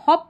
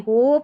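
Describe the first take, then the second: First: The vowel is a short 'o' sound. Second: The vowel is a long 'oh' sound. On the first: The speaker calls it right. "इसको हॉप पढ़ेंगे" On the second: The speaker calls it wrong. "होप नहीं पढ़ेंगे"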